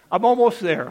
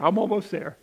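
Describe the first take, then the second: First: Said through a real laugh, a bit louder; amused, laughing apology. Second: Said in the usual way. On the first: Real, not acted.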